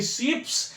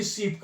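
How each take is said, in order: First: शीप्स with an added final s; wrong plural form. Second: शीप closed on the p, no s; correct unchanged form. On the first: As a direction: sound the s after the p in शीप्स. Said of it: "नहीं लिखा जाता है". (अंत में स जोड़कर शीप्स) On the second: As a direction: say शीप without a plural s. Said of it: "कभी भी शीप्स नहीं लिखा जाता". (बिना स के शीप) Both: Shown as a demonstration.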